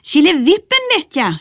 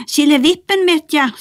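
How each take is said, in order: First: High Nisse call. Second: High Bertil call. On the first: Nisse calls the magic word. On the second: Bertil repeats the misheard word. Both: Acted.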